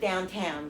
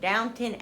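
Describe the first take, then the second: First: The second syllable sounds like 'town'. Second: The second syllable sounds like 'tun'. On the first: The speaker calls it wrong. "I always thought it was downtown" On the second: The speaker calls it right. "is how they pronounce it"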